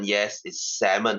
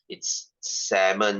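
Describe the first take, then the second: First: Salmon said as sam-mon, L silent; correct pronunciation. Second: Salmon said slowly as sam-mon, silent L; correct pronunciation. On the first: Teacher confirming the word, slow and careful. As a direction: repeat salmon slowly, no L. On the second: Teacher correcting pupils, slow careful pronunciation. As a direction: drag out salmon with no L sound. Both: Shown as a demonstration. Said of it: "The L is silent".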